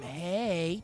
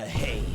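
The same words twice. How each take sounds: First: It is said in a normal voice. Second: It is said in a deep, distorted voice.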